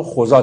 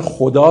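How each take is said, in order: First: خدا said with a z sound for the d, khozâ; old Persian pronunciation. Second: Said in the usual way. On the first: Shown as a demonstration. Teacher showing fourth-century pronunciation, خدا with z for d.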